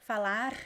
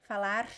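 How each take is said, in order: Both takes have the same delivery.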